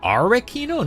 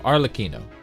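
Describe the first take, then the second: First: It is said without an L sound. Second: It is said with an L sound. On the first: The speaker calls it wrong. "No L?" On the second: The speaker calls it right. "You do say the L"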